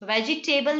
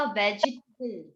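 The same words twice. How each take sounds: First: वेजिटेबल ending in a full "TAY-bul"; wrong table ending. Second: वेजिटेबल ending in a short "tih-bul"; reduced table ending. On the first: Teacher shows what not to say, वेजिटेबल with a full "table". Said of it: "वेजिटेबल नहीं बोलते". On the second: Teacher gives a similar word, वेजिटेबल with a short "tibble" ending. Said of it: "इसी तरह से आपको पता होगा". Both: Shown as a demonstration.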